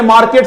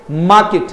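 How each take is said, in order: First: मार्केट with the R sounded, "mar-ket"; corrected-away pronunciation. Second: मार्केट with a silent R, "maa-kit"; model pronunciation. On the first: Teacher citing the common form to students, R pronounced. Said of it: "ऐसा नहीं कि आज मैंने". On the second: Teacher modelling the word for students, R-less pronunciation. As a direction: drop the R in मार्केट. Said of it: "मेरे मुंह से मार्केट ही निकलेगा". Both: Shown as a demonstration.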